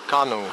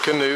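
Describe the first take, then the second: First: Canoe is said in a local Caribbean way. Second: Canoe is said in a North American way. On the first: This is how the local people say it. "they pronounce it canoe" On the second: This is how visitors say it. "we pronounce it canoe"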